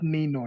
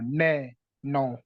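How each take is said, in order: First: The first vowel sounds like 'ee'. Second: The first vowel sounds like 'e' in bed. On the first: The speaker calls it wrong. "not nino" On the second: The speaker calls it right. "The letter A is pronounced as A in the word bed"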